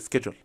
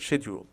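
First: The word begins with a 'sk' sound. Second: The word begins with a 'sh' sound. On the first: "الامريكان بينطقوها" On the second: "بريتش بنطقها كده"

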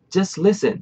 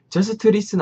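First: The t at the end of just is dropped. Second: The t at the end of just is pronounced. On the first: The speaker calls it right. "just listen 이러잖아요" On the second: The speaker calls it wrong. "just listen 안 하고"

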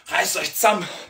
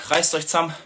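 First: It is said in a Bavarian accent. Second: It is said in a standard German accent.

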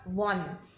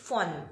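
First: The word begins with a voiced v sound. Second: The word begins with a voiceless f sound. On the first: The speaker calls it wrong. "It's not von" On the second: The speaker calls it right. "begin with a V are usually pronounced with a F"

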